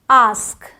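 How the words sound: It has the British 'aa' vowel.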